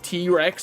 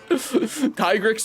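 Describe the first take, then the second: First: The first syllable sounds like 'tee'. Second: The first syllable sounds like 'tie'. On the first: The name is linked to the T-Rex. The speaker calls it wrong. "I'm never saying it like that" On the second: The name is linked to a tiger. The speaker calls it right. "Tigrex makes way more sense, especially because it's a it's a tiger"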